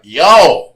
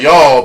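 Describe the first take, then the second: First: "Y'all" said loud and stretched into one drawn-out syllable, like "yo"; Oklahoma y'all. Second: A short, clipped "Y'all" in Kansas style. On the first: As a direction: belt out a long Oklahoma "Y'all". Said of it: "We say y'all all the time, but y'all be like". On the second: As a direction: say "Y'all" quick and flat like a Kansan. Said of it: "We're like". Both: Shown as a demonstration.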